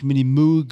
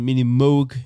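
First: Moog is given a German-style pronunciation. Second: Moog is given an American-style pronunciation. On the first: The speaker calls it wrong. "nicht Mini-Moog" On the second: The speaker calls it right. "das wird amerikanisch ausgesprochen"

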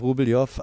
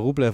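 First: The name ends in a 'ljow' sound. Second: The name ends in a short 'lev' sound. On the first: This is the Russian pronunciation. "eigentlich wäre russisch Rubeljow" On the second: This is how the player says his own name. "wir sagen jetzt wieder Rublev"

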